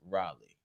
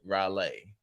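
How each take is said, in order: First: It is said plainly, without a country twang. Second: It is said with an exaggerated country twang. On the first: The speaker calls it right. "It's Raleigh" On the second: The speaker calls it wrong. "you added more country to it than it needed"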